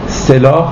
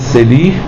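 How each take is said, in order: First: The last syllable has a long a vowel. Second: The last syllable has a long i vowel. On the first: "مصوت بلند آ میتونه به مصوت بلند ای تبدیل بشه" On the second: "سلاح میشه سلیح"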